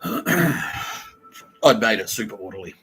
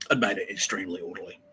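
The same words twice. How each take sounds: First: Drawn out at half speed; slow emphatic statement. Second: Said in the usual way. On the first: Shown as a demonstration. Stressing how orderly he made things, slowly. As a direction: lean on every word slowly.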